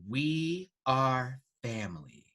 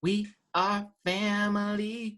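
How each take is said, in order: First: Slow category announcement in usual pitch; runway announcer. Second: High, slow sing-song category call; sing-song announcer. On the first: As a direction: announce it slowly, word by word. Announces runway category, first take. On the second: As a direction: stretch it out high, like a refrain. Repeats category higher, sing-song. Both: Pretend.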